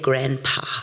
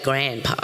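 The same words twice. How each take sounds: First: It is said with a South African accent. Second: It is said with a Canadian accent. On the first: The speaker calls it right. "I couldn't say grandpa" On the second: The speaker calls it wrong. "it came out like grandpa"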